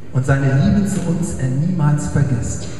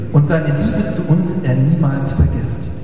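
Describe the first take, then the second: The two takes are said the same way.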